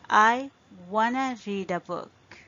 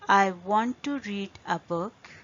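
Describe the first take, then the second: First: Want to is reduced to one word, wanna. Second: Want to is said as two full words.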